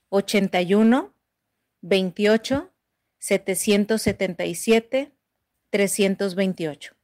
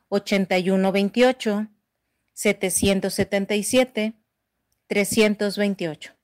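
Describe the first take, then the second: First: The number is said slowly. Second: The number is said fast.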